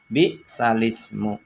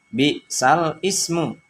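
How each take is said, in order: First: The l takes the vowel, joining straight into ismu. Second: The word ismu starts separately with its own hamzah. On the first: "dibaca sesuai dengan kaidah nakal menjadi" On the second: "Bacaan awalnya"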